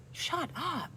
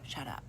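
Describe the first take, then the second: First: A high, teasing, amused "Shut up"; playful high shut up. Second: Low, soft, curt "Shut up"; harsh shut up. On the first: Vlogger shows the friendly way: playful high shut up. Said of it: "I'm saying it like". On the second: Vlogger shows the rude way: low harsh shut up. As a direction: drop low and cold on "Shut up". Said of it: "not like". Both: Shown as a demonstration.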